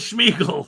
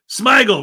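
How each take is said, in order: First: The name begins with a 'shm' sound. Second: The name begins with an 'sm' sound. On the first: The speaker calls it wrong. "I said Schmiegel" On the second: The speaker calls it right. "it's Smigel"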